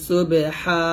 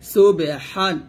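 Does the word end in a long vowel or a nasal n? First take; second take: long vowel; nasal n. First: The word ends with a lengthened a vowel. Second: The word ends with a final n sound. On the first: The reading stops at this word. "যদি থামেন তাহলে বলতে হবে সুবে হা" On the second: The reading continues past this word. "হা দুই জবর হান"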